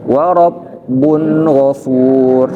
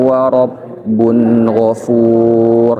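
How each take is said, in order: First: It is read in a challenging, confrontational way. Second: It is read in a gentle, calm way. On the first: The speaker calls it wrong. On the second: The speaker calls it right. "Makanya bacanya gini"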